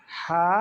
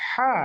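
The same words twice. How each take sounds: First: Open, unpressed "হা" on free breath; relaxed plain h. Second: "হা" pressed through a tightened mid-throat; squeezed throat h. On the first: Teacher repeats the contrast for students, "হা" relaxed. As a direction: let "হা" flow out with a loose throat. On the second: Teacher repeats the contrast for students, "হা" squeezed. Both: Shown as a demonstration. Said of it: "দুইটা উচ্চারণ কিন্তু আলাদা".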